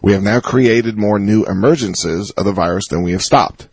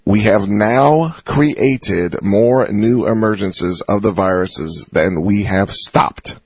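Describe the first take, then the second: First: It is read at a normal pace. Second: It is read slowly and deliberately.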